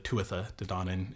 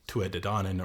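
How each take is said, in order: First: The name is said in its fuller Old Irish form. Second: The name is said in a shorter, modern form.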